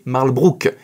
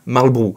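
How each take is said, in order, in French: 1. Le nom se termine par un son 'brook'. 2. Le nom se termine par un son 'borough'. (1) "on est censé prononcer Marlbrook" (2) "et non pas Marlborough"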